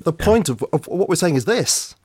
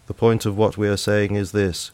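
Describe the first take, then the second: First: It is spoken expressively, with clear emphasis. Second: It is spoken flat, in a monotone. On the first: The speaker calls it right. "it needs to be" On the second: The speaker calls it wrong. "so often the reading would be"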